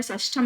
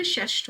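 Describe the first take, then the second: First: षष्ठम with an added -am; wrong word form. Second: षष्ठ ending on th, no m; correct word form. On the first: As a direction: say षष्ठम as shash-tham. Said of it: "षष्ठम नहीं होता शब्द". (षष्ठम के अंत में 'म') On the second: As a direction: say षष्ठ as shashth. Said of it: "षष्ठ होता है". (षष्ठ, अंत में म नहीं) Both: Shown as a demonstration.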